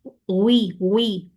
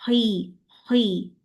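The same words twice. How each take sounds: First: हुई with a rounded w glide slipping in; wrong waw sound. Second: हुई kept clean from the throat, no w glide; correct sound. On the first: Teacher demonstrates the waw mistake to students. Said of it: "हुई करेंगे तो वाव की sound आएगी". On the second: Teacher gives students the real sound. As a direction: say हुई without rounding the lips. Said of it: "असल sound क्या है?". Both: Shown as a demonstration.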